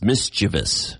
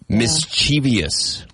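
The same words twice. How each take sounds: First: The word has no extra syllable before the ending. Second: The word has an extra syllable before the ending. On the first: The speaker calls it right. "there's no I after the V. It's mischievous" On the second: The speaker calls it wrong. "That's incorrect"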